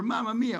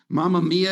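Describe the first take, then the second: First: High-pitched, delighted Italian exclamation. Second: Said in the usual way. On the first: Acted. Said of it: "That's the greatest thing ever".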